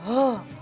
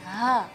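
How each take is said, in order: First: The sound is deep, heavy and comes from the chest. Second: The sound is thin and light from the throat. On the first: The speaker calls it wrong. "hanya besar banget, yaitu misalnya ngebas gitu" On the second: The speaker calls it right. "maka harus keluarnya tipis"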